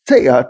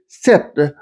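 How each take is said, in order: First: The vowel is drawn out with a glide. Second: The vowel is short and plain.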